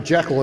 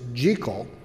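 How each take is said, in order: First: It is said the familiar, common way. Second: It is said the original Scottish way. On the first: This is how most people know the name. "which we know as" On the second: This is the historically correct pronunciation. "the proper pronunciation of the first name is Jekyll"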